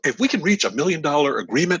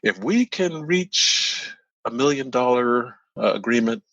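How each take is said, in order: First: It flows smoothly without hesitation. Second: It breaks with a hesitant filler pause. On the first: The other side is ready to agree. "he says it in that manner" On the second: The other side is not yet ready to agree. "with that latter response, you still have work to do"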